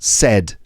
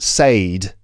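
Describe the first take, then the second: First: The vowel is short, as in bed. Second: The vowel is long, rhyming with say. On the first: The speaker calls it right. "it's pronounced said" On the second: The speaker calls it wrong. "is not pronounced said"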